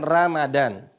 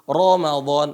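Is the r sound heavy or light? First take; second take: light; heavy. First: The r is pronounced light and thin. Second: The r is pronounced heavy and thick. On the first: The speaker calls it wrong. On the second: The speaker calls it right. "Ra-nya dibaca tebal"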